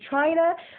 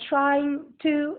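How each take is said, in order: First: The words run together into one short word. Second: Both words are said fully and separately.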